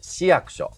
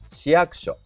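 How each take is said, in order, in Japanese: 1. ピークは前、「shi」の音節にあります。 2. ピークは後ろ、「ku」の音節にあります。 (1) "ダモンデ県民は市役所です。" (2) "正しくは市役所。"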